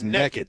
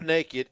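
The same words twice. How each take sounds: First: The first syllable sounds like 'neck'. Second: The first syllable sounds like 'nay'. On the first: The speaker calls it right. "This is East Texas. N-E-K-K-E-D" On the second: The speaker calls it wrong. "It's not naked"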